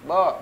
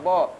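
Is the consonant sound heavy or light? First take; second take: heavy; heavy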